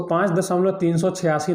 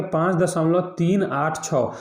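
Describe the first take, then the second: First: पाँच दशमलव तीन सौ छियासी read as three hundred eighty-six; wrong reading. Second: पाँच दशमलव तीन आठ छः with each digit 'तीन आठ छः' said separately; correct reading. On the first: Teacher shows students the common mistake, read as whole number. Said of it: "इसको ... नहीं पढ़ेंगे". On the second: Teacher shows students the right way, digit by digit. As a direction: read 'तीन आठ छः' digit by digit after the point. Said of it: "इसको पढ़ेंगे". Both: Shown as a demonstration.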